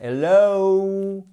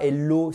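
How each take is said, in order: First: "hello" with a long high oh-oo glide; English diphthong. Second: "hello" ending in a short, unglided O; French pure O. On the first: Teacher correcting the French O, drawn-out gliding hello. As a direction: stretch the end of "hello" into two sounds. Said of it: "non, c'est hello". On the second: Teacher showing the wrong hello, short pure French O. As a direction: say "hello" French-style, O at the lips. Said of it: "un O du bout de la bouche". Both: Shown as a demonstration.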